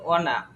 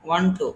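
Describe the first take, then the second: First: The words are blended into one short reduced word. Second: Both words are said fully and separately. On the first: "ওয়ান টু কে কি বলবো?" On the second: "তারপর হচ্ছে ওয়ান টু"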